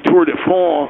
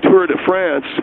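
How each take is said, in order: First: It is said with a French-style pronunciation. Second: It is said with an English-style pronunciation. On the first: Someone else's fancy way of saying it. The speaker calls it wrong. "I don't say Tour de France or whatever" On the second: The speaker's own everyday way of saying it. The speaker calls it right. "I say Tour de France"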